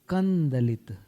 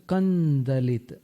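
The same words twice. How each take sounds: Both takes have the same delivery.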